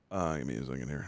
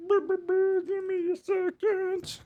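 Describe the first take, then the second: First: Said in the usual way. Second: High, very slow drawn-out give me a second; silly sing-song stalling; stretched-out stall. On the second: Pretend. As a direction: stretch every word like a tape running slow. Stalling while fixing the mic.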